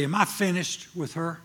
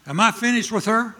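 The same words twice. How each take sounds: First: Calm, even voice of God asking; God asks it simply and evenly; God's plain question. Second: Higher, louder sharp rebuke; little slapping. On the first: God asking the preacher a plain, steady question. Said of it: "That's the way he talks to me". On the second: God sharply confronting the preacher, like a little slap. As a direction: snap the question like a slap. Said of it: "Like a s-, little slapping". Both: Retold or imitated.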